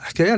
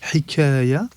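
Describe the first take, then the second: First: No vowel is heard between h and k. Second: A vowel is heard between h and k. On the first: This is the Algerian dialect form. "je la prononce en algérien" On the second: This is the literary Arabic form. "proche de l'arabe littéraire"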